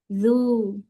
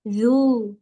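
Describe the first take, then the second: Both takes have the same delivery.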